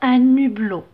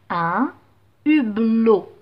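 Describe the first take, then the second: First: The n sound links into the next word. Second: The two words stay separate without linking. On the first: The speaker calls it wrong. "je ne vais pas dire un hublot. Non, c'est faux" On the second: The speaker calls it right. "Donc pas de liaison"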